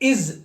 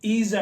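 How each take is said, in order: First: The vowel is short, like 'iz'. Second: The vowel is long, like 'eez'. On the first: The speaker calls it right. "కానీ ఇజ్ అని చదవాలి" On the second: The speaker calls it wrong. "సహజంగా ఎక్కువ మంది ఈజ్ అంటారు"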